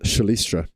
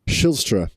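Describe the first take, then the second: First: The name is said in three syllables, 'sha-li-stra'. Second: The name is said in two syllables, 'shil-stra'. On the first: The speaker calls it wrong. "rather than Shalistra" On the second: The speaker calls it right. "Shilstra rather than Shalistra"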